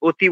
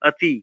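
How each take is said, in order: First: The first vowel is a rounded o sound. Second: The first vowel sits between o and a. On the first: The speaker calls it wrong. "অতি বললে হবে না।" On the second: The speaker calls it right. "অ, আ এর মাঝামাঝি একটা এরকম একটা উচ্চারণ"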